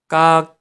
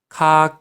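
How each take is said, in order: First: The consonant is tense, with no puff of air. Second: The consonant is aspirated, with a puff of air. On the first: The speaker calls it wrong. "이렇게 된 소리로 발음하는 경우도 있는데 여러분들 절대 그렇게 발음하지 마세요" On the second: The speaker calls it right. "이렇게 키읔으로 네, 키읔으로 발음해야 됩니다"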